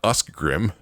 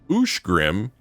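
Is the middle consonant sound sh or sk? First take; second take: sk; sh. First: The middle consonants sound like sk. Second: The middle consonants sound like sh. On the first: The speaker calls it wrong. "and not Uskgrim" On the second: The speaker calls it right. "Usgrim is Ushgrim"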